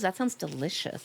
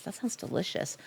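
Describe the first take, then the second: First: Said in the usual way. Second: Breathy hushed whisper of "That sounds delicious". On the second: Shown as a demonstration. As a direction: whisper it like a craving secret. Repeats the line, then whispers.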